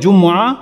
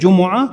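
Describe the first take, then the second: First: The m is followed by an a vowel. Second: The m is followed by a u vowel. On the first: "মিমের মধ্যে জবর দিয়েও পড়া যায়" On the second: "মিমের উপরে পেশ দিয়ে জুমুআ"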